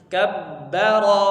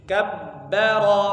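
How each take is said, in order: No difference in how they are said.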